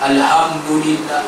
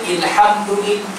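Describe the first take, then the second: First: The word begins with an 'a' vowel. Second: The word begins with an 'i' vowel. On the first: The speaker calls it right. "Kena baca alham" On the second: The speaker calls it wrong. "Tak boleh baca ilhamdulillah"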